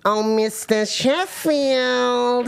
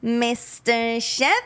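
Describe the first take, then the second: First: High, very drawn-out character call; hammed-up accent, long high stretch; put-on character accent. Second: Slow, drawn-out accent imitation; long, stretched character-voice call; put-on character accent. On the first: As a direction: wail the name out slowly in an accent. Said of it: "I'll do my accent". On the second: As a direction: draw the name out in a put-on accent. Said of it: "you do your accent".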